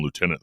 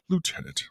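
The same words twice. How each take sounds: First: Said in the usual way. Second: "Lieutenant" said high and clipped like a proper English lady; prim English "Lieutenant". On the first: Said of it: "calls him lieutenant the whole time". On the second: Retold or imitated. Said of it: "being proper English and calls him lieutenant".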